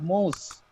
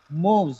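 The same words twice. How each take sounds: First: The word ends with an s sound. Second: The word ends with a z sound. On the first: The speaker calls it wrong. "not moves" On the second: The speaker calls it right. "it gets z sound at the end"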